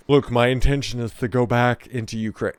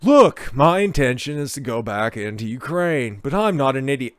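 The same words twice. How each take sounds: First: Said in the usual way. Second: Put-on lazy surfer-dude accent; Spicoli. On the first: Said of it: "Oh, sorry, I should be using". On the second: Host redoing the actor's quote, mock Spicoli accent. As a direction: read it as a stoner movie dude. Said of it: "using proper Spicoli accent".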